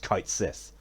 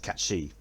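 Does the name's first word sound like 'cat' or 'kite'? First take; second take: kite; cat. First: The first word sounds like 'kite'. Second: The first word sounds like 'cat'. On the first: The speaker calls it wrong. "how I used to call him" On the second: The speaker calls it right. "the proper pronunciation"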